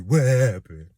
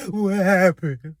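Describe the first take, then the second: First: Drawn-out, knowing stress on happened; emphatic answer. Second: High, loud, drawn-out cry; mock self-questioning wail. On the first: Acted. Drag queen answering her own question, emphatic. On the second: Jilted lover asking herself, mock bewildered wail. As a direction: wail it slowly in comic bewilderment. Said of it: "you ask yourself".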